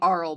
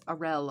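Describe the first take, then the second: First: The name sounds like Carl without the K. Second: The name does not sound like Carl. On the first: The speaker calls it wrong. "I've been calling him Aurel, but I don't think that's it because I don't think it's Carl without the. K" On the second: The speaker calls it right. "It's it's Aurel. I think it's Aurel"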